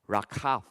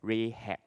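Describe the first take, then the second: First: The name is said in its Hebrew form. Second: The name is said in its English form. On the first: "by the name of Rakhav" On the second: "in our English Bible we read as Rahab"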